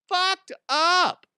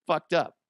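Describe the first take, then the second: First: FUCKED UP squealed high and loud; drawn-out high-pitched "Fucked up"; high exaggerated repeat. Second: Said in the usual way. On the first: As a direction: stretch "Fucked up" out in a loud falsetto.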